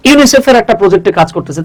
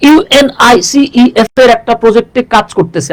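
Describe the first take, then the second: First: ইউনিসেফ said as a single word; said as one word. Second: ইউএনআইসিইএফ spelt out slowly letter by letter; spelled out wrongly. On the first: Teacher showing the right way to say UNICEF. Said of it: "আপনি কি বলতেছেন যে". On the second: Teacher showing the wrong way to say UNICEF. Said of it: "আপনি কিন্তু এভাবে বলেন না". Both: Shown as a demonstration.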